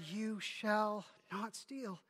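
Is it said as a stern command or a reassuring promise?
promise. It is said as a reassuring promise.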